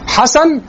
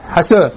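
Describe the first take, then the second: First: حسن with a full open final a, pitched high; dialect demonstration. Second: حسن with the last a tilted toward e, pitched low; dialect demonstration. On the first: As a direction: say حسن with a clear open vowel. (نطق حسن بفتحة صريحة) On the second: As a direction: tilt the end of حسن toward "hasen". (نطق حسن بإمالة الفتحة) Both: Shown as a demonstration. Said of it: "اللهجة كيفية نطق الكلمة الواحدة".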